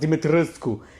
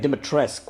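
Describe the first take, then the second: First: The name is said with an 'oo' vowel. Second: The name is said without an 'oo' vowel. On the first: This is how research suggests it should be said. "It should be pronounced Dimitrescu" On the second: This is how the game says it. "they pronounce her name Dimitrescu without the "oo.""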